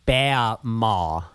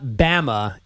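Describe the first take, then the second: First: The vowels are drawn out and longer. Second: The vowels are short and plain. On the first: The family's name for a grandmother. The speaker calls it right. "there's extra A's" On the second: The nickname for the state of Alabama. The speaker calls it wrong. "it's not Bama"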